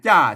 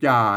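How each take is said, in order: First: The syllable is said with the ordinary tho tone. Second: The syllable is said with the ek tone. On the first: "ใส่ไม่โทจ้าจ้าเสียงโทปกติ" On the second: "ใส่ไม่เอกไปจ่า"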